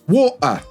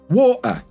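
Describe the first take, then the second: First: The middle consonant is a clear t sound. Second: The middle consonant is a catch in the throat. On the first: "water becomes" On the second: "like in uh-oh"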